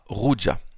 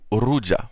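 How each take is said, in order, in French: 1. Le R est un R guttural français. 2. Le R est roulé fortement. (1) "en français, ça donnera Ruja" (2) "de manière plus prononcée"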